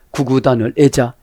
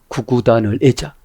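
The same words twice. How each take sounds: First: 구구단을 애자 with 애자 falling at the end as a firm statement; falling statement tune. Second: 구구단을 애자 with 애자 rising at the end like a question; rising question tune. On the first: Preacher answering himself, 구구단을 애자 falling. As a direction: settle 애자 down, stating it. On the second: Preacher asking the congregation, 구구단을 애자 rising. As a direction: lift 애자 up, asking. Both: Shown as a demonstration.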